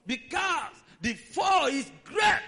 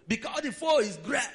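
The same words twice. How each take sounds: First: Slow shout. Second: Said in the usual way. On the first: Acted. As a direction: stretch "Because the fall is great" into a slow shout.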